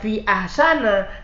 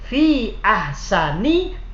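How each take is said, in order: First: The second word ends with an 'a' vowel. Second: The second word ends with an 'i' vowel. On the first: The speaker calls it wrong. "tidak boleh lagi dibaca fi ahsana" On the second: The speaker calls it right. "tapi harus fi ahsani takwimin"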